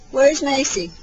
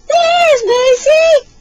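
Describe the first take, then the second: First: Said in the usual way. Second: High, loud, stretched-out squeal; slow, high, excited singsong; peekaboo reveal. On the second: Pretend. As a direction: burst out in delight for a baby.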